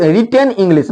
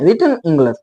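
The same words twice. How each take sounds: First: "रिटन इंग्लिश" with full "ten" and "lish"; wrong pronunciation. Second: "रिटन इंग्लिश" with reduced "tuhn" and "gluhs"; corrected pronunciation. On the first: Teacher shows what not to say, "रिटन इंग्लिश" as "ri-ten ing-lish". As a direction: spell out both vowels in "रिटन इंग्लिश". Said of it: "ये नहीं लिख-, रिटन इंग्लिश नहीं". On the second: Teacher models the right form, "रिटन इंग्लिश" with swallowed vowels. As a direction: say "रिटन इंग्लिश" as "ritn ingluhs". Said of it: "रिटन इंग्लिश नहीं". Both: Shown as a demonstration.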